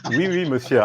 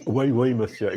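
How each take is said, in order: First: French said with a proper accent; good French accent. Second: Mock French in the host's accent; imitating host's accent. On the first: Shown as a demonstration. Guest shows his own French, proper French accent. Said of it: "I actually speak good French". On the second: Guest echoes host's French, imitating his accent. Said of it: "why am I imitating your accent?".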